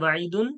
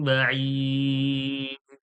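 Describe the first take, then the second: First: The word ends with a full -un ending. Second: The word stops short without the -un ending. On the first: The reading continues without stopping. "জুড়ে পড়লে" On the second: The reader stops at this word. "আর যদি ছাড়ি অফ করি"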